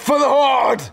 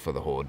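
First: It is said loudly with energy. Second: It is said flatly and casually.

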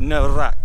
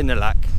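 First: The middle consonant is an R sound. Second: The middle consonant is an L sound. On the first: This is the formal, standard form of the word. "It's actually Nalak" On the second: This is the everyday casual form of the word. "no one pronounces the R nowadays, so just say Nalak"

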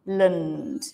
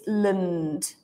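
First: The vowel is a weak 'uh' sound. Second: The vowel is a weak 'uh' sound.

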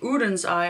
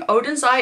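First: The name is pronounced the Swedish way. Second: The name is pronounced the American way. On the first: The speaker calls it right. "It's actually Oden's Eye, I think" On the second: The speaker calls it wrong. "I keep saying Oden's Eye. ... I've been influenced by all these American YouTubers"

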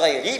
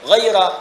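First: The word ends with an 'i' vowel. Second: The word ends with an 'a' vowel. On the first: It describes the preceding group, giving a fuller, more complex meaning. "bisa dibaca ghairi" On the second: It marks a state distinct from what came before. "bisa dibaca ghairah"

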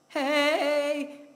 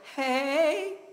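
First: The pitch stays level or falls at the end. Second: The pitch goes up at the end. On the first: "before, it was like" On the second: "You see how it went up there? It went up at the end"

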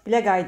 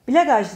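First: The name ends with a 'y' sound. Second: The name ends with a 'zh' sound. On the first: The speaker calls it right. "Bilagay diye okunuyor" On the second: The speaker calls it wrong. "Bilagaj diye okunmuyor"

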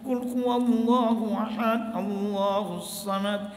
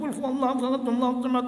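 First: It is recited slowly and evenly. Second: It is recited quickly, in a rush.

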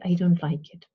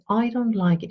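First: The vowel in 'I' is narrow and closed. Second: The vowel in 'I' is wide and open. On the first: The speaker calls it wrong. "You don't say" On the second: The speaker calls it right. "you say"

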